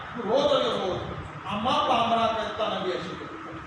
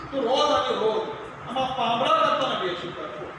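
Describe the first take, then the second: Both takes have the same delivery.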